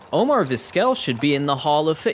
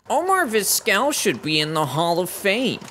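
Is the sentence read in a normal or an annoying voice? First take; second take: normal; annoying. First: It is read in a normal, plain voice. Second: It is read in an exaggerated, annoying voice.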